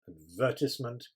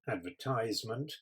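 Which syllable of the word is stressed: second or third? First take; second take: second; third. First: The stress is on the second syllable. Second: The stress is on the third syllable. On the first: This is the British way of saying it. "British English, we stress the second syllable" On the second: This is the American way of saying it. "American English probably stress the third"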